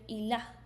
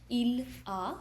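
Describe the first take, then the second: First: The two words run together smoothly. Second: The two words are said separately.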